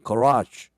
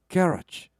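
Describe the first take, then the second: First: It is said in an American accent. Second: It is said in a British accent. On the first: "미국 사람들은 garage 이렇게 발음하거든요" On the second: "영국 사람들이 이렇게 발음하거든요"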